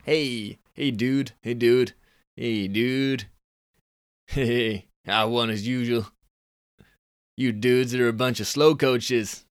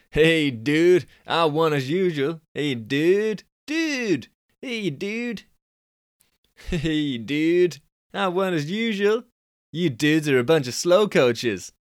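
First: Mild Californian dude. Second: Californian dude. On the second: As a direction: pitch way up into a Californian dude brag. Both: Shown as a demonstration. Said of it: "he's a Californian kind of guy".

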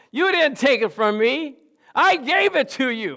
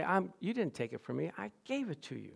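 First: Higher, louder and slow, each word weighed; proclaiming. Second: Softer, as a private vow; quiet. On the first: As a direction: declare it slowly as a victory. Preacher proclaiming the lesson. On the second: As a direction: say it softly to yourself. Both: Shown as a demonstration.

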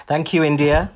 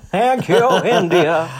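First: Said in the usual way. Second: High, loud mock gratitude; hammed-up thanks. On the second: Thanking India for the legacy left behind, hammed-up and high. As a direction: sing out the thanks through laughter.

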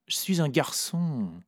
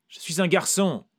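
First: Said in the usual way. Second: Cried out. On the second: A narrator's reading. The narrator cries out to Vera, higher and louder. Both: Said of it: "ai-je crié".

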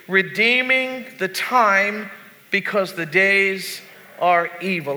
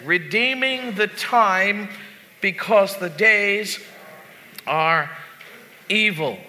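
First: Said in the usual way. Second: Slow verse reading, pausing before "are" and before "evil"; deliberate pauses. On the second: Shown as a demonstration. Pastor leading the congregation in rereading, "are... evil" broken by pauses. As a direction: set "are" and "evil" apart, each alone.

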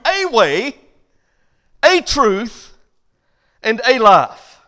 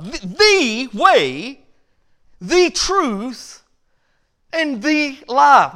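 First: "a" set apart and leaned on before way, truth and life; stress on A. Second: "the" leaned on slowly before way, truth and life; slow, deliberate weight on "the"; stress on THE. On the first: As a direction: contrast "a" against "the". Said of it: "that's opposed to". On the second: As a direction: hit each "the" hard. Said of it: "that one three-letter word, the". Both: Shown as a demonstration.

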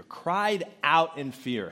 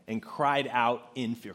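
First: "Cried out in fear" said slowly, stress on "Cried"; drawn-out repeat with weight on "Cried"; slow emphatic repeat. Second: Said in the usual way. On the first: Shown as a demonstration. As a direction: linger on "Cried out in fear" and hit "Cried".

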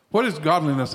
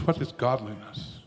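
First: Said in the usual way. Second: Quiet question. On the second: Real, not acted.

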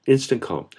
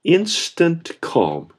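First: Said in the usual way. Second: "instant calm" very slow, "instant" stressed; drawn-out emphasis. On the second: Real, not acted. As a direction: stretch "instant calm" out word by word. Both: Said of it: "Jesus spoke, and there was".

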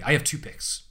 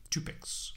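First: Said in the usual way. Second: Dramatic unvoiced whisper. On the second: Shown as a demonstration. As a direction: breathe it like a secret. Whispered echo of own line.

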